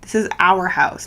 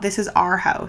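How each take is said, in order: First: The word our sounds like hour. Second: The word our sounds like are. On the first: The speaker calls it right. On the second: The speaker calls it wrong. "when people say R instead of our"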